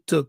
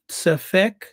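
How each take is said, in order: First: It is said with one syllable, tuk. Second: It is said with two syllables, tse-fek. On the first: This is the Bantu pronunciation. The speaker calls it right. "it's actually tuk in Bantu" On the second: This is how the reference dictionary renders it. The speaker calls it wrong. "they pronounce this word tsefek"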